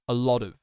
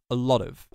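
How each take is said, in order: First: The words are crushed together and reduced. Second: The same.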